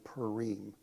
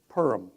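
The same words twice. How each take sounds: First: It is said the Israeli way. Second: It is said the Ashkenazi way.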